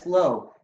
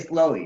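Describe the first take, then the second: First: The word ends without an extra vowel. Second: The word ends with an added 'ee' sound. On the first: The speaker is not from Texas. "most of the country says slow" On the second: The speaker is from Texas. "a dead giveaway that you're from Texas, you say slowy"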